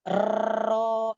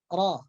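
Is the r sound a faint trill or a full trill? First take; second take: full trill; faint trill. First: The r has a full, strong rolling trill. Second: The r has only a faint, light trill. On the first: The speaker calls it wrong. "itu salah. Itu getaran yang sempurna" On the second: The speaker calls it right. "getaran yang khaf, yang samar"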